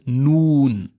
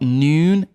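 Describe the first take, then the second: First: The vowel is a pure, clear oo sound. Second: The vowel is an English-style oo sound. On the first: The speaker calls it right. "It's noon" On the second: The speaker calls it wrong. "It's not noon"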